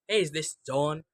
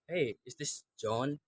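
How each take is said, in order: First: The phrase is spoken quickly and less clearly. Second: The phrase is spoken slowly and clearly. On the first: The speaker calls it wrong. "I don't use say right now like this" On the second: The speaker calls it right. "rather than I speak like slowly, try to be clear"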